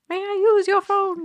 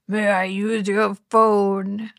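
First: It is said in his normal voice. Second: It is said in a put-on deep voice.

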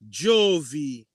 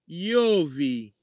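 First: The name begins with a J sound. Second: The name begins with a Y sound. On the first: This is the modern form of the name. "Or in modern word, a modern term" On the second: This is the old Roman form of the name. "Because there was no letter J back then. It was I"

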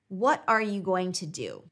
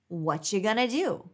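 First: Every word is said fully and separately. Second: The words are reduced and run together. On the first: "listen to the sentence" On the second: "Repeat it as"

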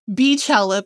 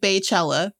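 First: The first syllable sounds like 'bee'. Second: The first syllable sounds like 'bay'. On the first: The speaker calls it right. "It is Beachella because her name is [name]" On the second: The speaker calls it wrong. "They're entitled to their wrong pronunciation"

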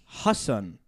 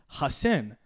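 First: The name is said with a Pakistani pronunciation. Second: The name is said with an American pronunciation. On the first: "Pakistani, Urdu, Desi" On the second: "more or less Hassan, American"

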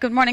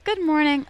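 First: It is said with shock and dismay. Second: It is said warmly and sweetly.

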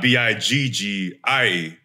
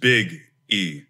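First: It is said as one word without a pause. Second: It has a small pause before the E. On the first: The speaker calls it wrong. "It's not B-I-G-G-I-E" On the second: The speaker calls it right. "you got to put a little pause in there"

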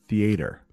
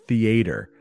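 Both takes have the same delivery.

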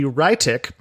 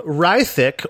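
First: The name is said with German sounds. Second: The name is said with English sounds.

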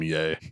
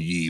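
First: The name is said with an 'ay' vowel. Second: The name is said with an 'ee' vowel. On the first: The speaker calls it wrong. "I will not call him yay" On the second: The speaker calls it right. "I call him ye, by the way. Because it's an E"

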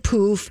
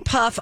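First: The vowel sounds like the 'oo' in 'food'. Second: The vowel sounds like the 'u' in 'cup'. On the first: This is the speaker's own way of saying it. "I say poof" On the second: This is the other person's way of saying it. "you say puff"

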